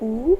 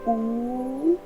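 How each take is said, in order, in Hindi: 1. स्वर को बहुत कम समय तक बोला जाता है। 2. स्वर को लगभग दोगुना समय तक बोला जाता है। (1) "ह्रस्व" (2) "दीर्घ"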